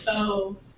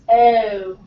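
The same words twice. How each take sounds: First: The vowel is rounded from the start. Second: The vowel starts from a neutral schwa sound. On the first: "whereas in American English, we round this out. It becomes more of oh" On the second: "in British English, they use the schwa. So it's oh"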